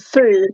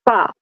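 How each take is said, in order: First: The vowel sounds like the 'oo' in food. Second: The vowel sounds like the 'u' in cup. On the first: This is how the name was said where the man came from. "the F U was a foo" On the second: This is how people here would say it. "not a fa"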